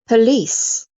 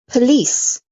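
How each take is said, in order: The two takes are said the same way.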